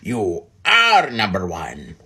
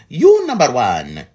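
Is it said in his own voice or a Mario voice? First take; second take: own voice; Mario voice. First: It is said in his normal own voice. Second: It is said in a put-on Mario voice.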